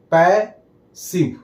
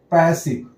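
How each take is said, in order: First: passive broken in two, "पै... सिव"; split into syllables. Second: Said in the usual way. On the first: Shown as a demonstration. Teacher dividing a word into two syllables, syllable-by-syllable demo. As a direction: say passive as two separate beats with a pause between. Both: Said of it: "दो syllable आ गया".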